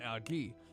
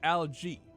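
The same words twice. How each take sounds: First: It is given a non-American pronunciation. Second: It is given the American pronunciation. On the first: "rather than algae" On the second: "I'm a United States American. So... I will say algae"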